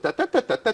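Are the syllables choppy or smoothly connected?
choppy. Each syllable is separated by a short break. This is how a non-native speaker's rhythm sounds. The speaker calls it wrong. "that's what an English listener hears"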